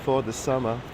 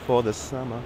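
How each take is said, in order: Both takes have the same delivery.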